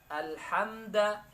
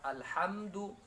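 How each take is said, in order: First: The word ends with an 'a' vowel. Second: The word ends with a 'u' vowel. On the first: The speaker calls it wrong. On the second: The speaker calls it right.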